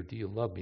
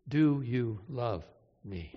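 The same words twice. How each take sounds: First: Soft, low, tender question; Jesus asking Peter softly; quiet plea. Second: Slow and low, each word weighed; a slow, aching repeat of the question; slow, heavy plea. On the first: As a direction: ask it gently under the breath. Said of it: "Jesus says to Peter". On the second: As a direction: let the last ask sink slowly. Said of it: "Jesus asked three times". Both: Retold or imitated.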